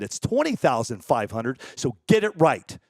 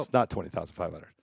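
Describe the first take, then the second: First: Deadpan fake correction of the price; mock boast. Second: Lower, softer, taking the joke back; quiet real correction. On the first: Streamer teasing critics with a fake sponsor price, mock boast. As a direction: pretend to set the record straight, tongue in cheek. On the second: Real, not acted. Streamer owning up after his joke, lower and softer. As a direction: drop the act and admit it quietly.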